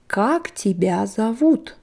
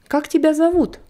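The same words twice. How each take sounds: First: The phrase is said slowly and carefully. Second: The phrase is said quickly and smoothly.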